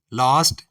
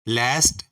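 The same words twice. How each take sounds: First: लास्ट with a broad "aa"; British last. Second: लास्ट with a flat "ae"; flat American vowel in लास्ट; American last. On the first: Teacher listing the British form of last, broad "aa". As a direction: open British vowel in लास्ट. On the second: Teacher listing the American form of last, flat "ae". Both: Shown as a demonstration. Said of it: "इसी तरह".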